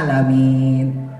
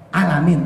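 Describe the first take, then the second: First: The vowel is long and drawn out. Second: The vowel is short and quick. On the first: The speaker calls it right. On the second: The speaker calls it wrong.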